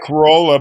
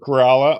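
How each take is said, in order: First: The middle syllable does not have an 'ah' vowel. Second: The middle syllable sounds like 'rah'. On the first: The speaker calls it wrong. "Spelled like Corolla" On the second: The speaker calls it right. "it's pronounced as Corolla"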